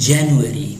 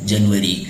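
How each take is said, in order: First: It is said with an English accent. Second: It is said with a Hindi accent. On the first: The speaker calls it right. "जब English में आप बात करते हैं और आपका pronunciation अच्छा होता है" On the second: The speaker calls it wrong. "Hindi में लोग बोलते हैं जनवरी"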